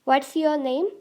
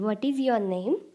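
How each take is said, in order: First: The words 'what is' merge into 'what's'. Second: The words 'what is' are said separately.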